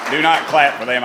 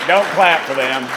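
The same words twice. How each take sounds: First: NOT punched, spelled out as Do not; joking command, NOT stressed. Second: DON'T hit louder; joking command, Don't stressed. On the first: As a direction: lean on not. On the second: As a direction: punch Don't as a joke. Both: Real, not acted.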